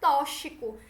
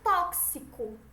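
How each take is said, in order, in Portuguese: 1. O x tem som de ch. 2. O x tem som de ks. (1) "Pronúncia do X como C H quando deveria ser K S" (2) "É como se fosse um K S"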